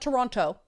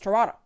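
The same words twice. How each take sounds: First: The second T sound is clearly pronounced. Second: The second T sound is left out. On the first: The speaker calls it wrong. "It's not Toronto" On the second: The speaker calls it right. "you don't pronounce the second T in Toronto"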